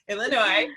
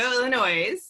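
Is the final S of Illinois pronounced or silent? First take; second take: silent; pronounced. First: The final S is silent. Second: The final S is pronounced. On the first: The speaker calls it right. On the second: The speaker calls it wrong.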